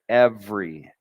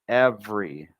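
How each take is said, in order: Both takes have the same delivery.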